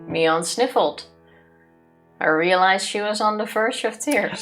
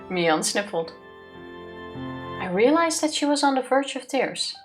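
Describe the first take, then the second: First: It sounds annoyed and grudging. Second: It sounds warm and sincere.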